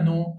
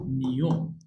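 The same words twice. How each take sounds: First: نو with a plain n straight into o; نو without any y glide; wrong pronunciation. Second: نيو as Italian gno, palatal n; correct pronunciation. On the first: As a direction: say نو as simply "no". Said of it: "ما اقولش هنا نو". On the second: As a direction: say نيو as "nyo". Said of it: "اقول نيو". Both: Shown as a demonstration.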